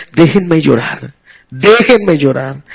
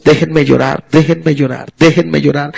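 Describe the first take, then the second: First: Slow, low and soft, drawn out in grief; grieving plea, slower. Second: Grieving plea. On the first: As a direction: plead to be left alone to mourn, lingering. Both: Retold or imitated. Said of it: "No, es".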